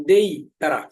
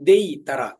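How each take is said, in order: Both takes have the same delivery.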